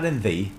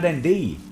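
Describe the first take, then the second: First: The word 'thee' begins with a th sound. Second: The word 'thee' begins with a d sound. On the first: "in Yorkshire, they'll say" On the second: "in Sheffield, it's D and R"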